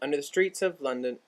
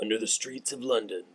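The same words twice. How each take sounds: First: It is said in her normal reading voice. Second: It is said in a dramatic movie-trailer voice.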